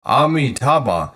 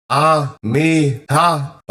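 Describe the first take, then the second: First: Said in the usual way. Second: "Amitabha" slowly, each of the four syllables apart; crystal clear syllables. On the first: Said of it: "Reciting it out by mouth". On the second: Shown as a demonstration. Teacher showing how to listen to the name, "Amitabha" in four slow, clear syllables. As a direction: sound out "Amitabha" syllable by syllable, higher-pitched. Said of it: "crystal clearly, four syllables".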